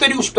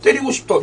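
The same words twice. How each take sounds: First: It is said bluntly, with a rough, forceful tone. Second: It is said plaintively, with a longing, pleading tone. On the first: A plain wish to hit someone. "이게 아니라" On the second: The wish sounds oddly yearning and suggestive. "그 말투가 너무 좀 애절했는데"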